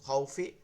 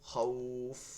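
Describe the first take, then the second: First: The 'aw' sound is said quickly, word not stopped. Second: The 'aw' sound is drawn out before stopping. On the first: The word is joined to what follows. "মিলাই পড়লে তখন লিন হবে, তখন নাউমু দ্রুত পড়তে হবে" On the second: The reader stops on this word. "এক আলিফ টেনে পড়তে হবে"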